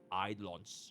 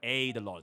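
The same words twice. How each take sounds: First: The first syllable sounds like 'eye'. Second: The first syllable sounds like 'aid'. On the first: The speaker calls it right. "It's E I D, right?" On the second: The speaker calls it wrong. "It's not A Y D. It's not Eidolons"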